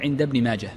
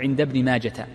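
First: The name ends with an unvoweled h sound. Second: The name ends with a t sound. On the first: The speaker calls it right. "وإنما تقول عند ابن ماجه، فهي هاء ساكنة" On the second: The speaker calls it wrong. "لا تجعلها تاء فلا تقول"

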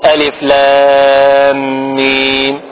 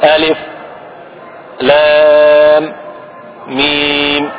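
First: The letter names run together without pauses. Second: A brief pause separates each letter name. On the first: "اللي يقرأه الناس بالوصل" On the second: "السكت اليسير بين كل حرف"

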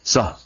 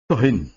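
First: The word ends without any added -in sound. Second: The word ends with an added -in sound. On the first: Stop talking about that particular thing. "soh dengan sukun haknya, bituni tanwinin, tanpa ada tanwin" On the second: Be silent about everything. "Itu dengan tanwin"

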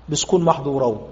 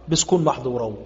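The two takes are said the same way.

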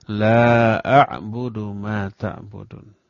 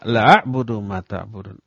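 First: The vowel of the first word is held long. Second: The vowel of the first word is cut short. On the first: It denies worshipping what others worship. The speaker calls it right. "Lanya panjang. Dua harokat, tidak panjang banget" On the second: It affirms truly worshipping what others worship. The speaker calls it wrong. "Kalau lah dibaca pendek, artinya pasti"

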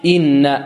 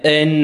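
First: The first vowel is a pure short i. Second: The first vowel leans toward an a sound. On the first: The speaker calls it right. "لا صحيح" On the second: The speaker calls it wrong. "فيعطيها شيئا من الفتح أو يأتي بها ممالة"

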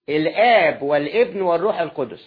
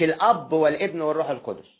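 First: The vowel of the first word is drawn out long. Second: The vowel of the first word is kept short. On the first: It names God the Father. The speaker calls it right. "تنطقها مظبوط" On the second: It names an ordinary father. The speaker calls it wrong. "مش"

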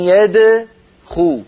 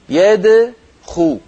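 The two takes are said the same way.

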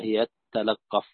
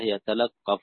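First: A doubled, held t follows the first word. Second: A single short t follows the first word. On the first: "بالتائين فإذا هي تلقف بالإدغام" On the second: "بحذف إحدى التائين"

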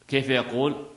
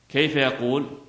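No difference in how they are said.

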